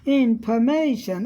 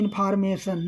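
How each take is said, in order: First: One syllable is said louder and stronger. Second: All syllables are said flat and even. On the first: The speaker calls it right. "Primary जहाँ है वहाँ ज़्यादा बल पड़ा है" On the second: The speaker calls it wrong. "हम सीधा कह देते हैं इंफॉर्मेशन नहीं"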